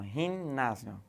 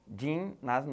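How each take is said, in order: First: The word begins with a throaty jota sound. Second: The word begins with a soft j-like sound. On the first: "o G do português tem som de re" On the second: "ginásio não"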